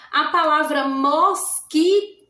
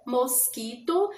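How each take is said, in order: First: Said in the usual way. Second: "mosquito" said slowly and softer, each syllable mos-qui-to separate; slow syllable count. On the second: Shown as a demonstration. ("mosquito" dito devagar, sílaba por sílaba) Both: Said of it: "eu abri a boca três vezes".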